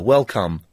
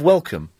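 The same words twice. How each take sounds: First: The second syllable has a full O vowel. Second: The second syllable has a short U vowel. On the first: "So actually pronouncing the O instead of the U" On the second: "Instead of welcome"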